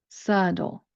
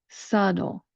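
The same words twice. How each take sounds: No difference in how they are said.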